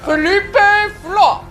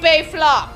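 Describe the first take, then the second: First: It is said in a French accent. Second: It is said without a French accent. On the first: The speaker calls it right. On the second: The speaker calls it wrong.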